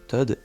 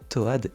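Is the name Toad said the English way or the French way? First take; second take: English; French. First: The name is said with an English pronunciation. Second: The name is said with a French-style reading. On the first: This is the official pronunciation. "Normalement ces deux personnages se prononcent" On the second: This is how children without English said it. "Personnellement je prononce les persos"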